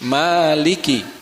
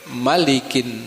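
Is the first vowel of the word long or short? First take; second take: long; short. First: The first vowel is held long. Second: The first vowel is kept short. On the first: "ma-nya dibaca panjang, mat tabi'i, dua harokat" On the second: "kalau di An-Nas dibacanya pendek"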